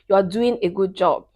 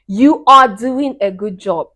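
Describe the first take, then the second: First: Said in the usual way. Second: "You are doing a good job" slow and loud, word by word; emphatic praise. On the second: Real, not acted.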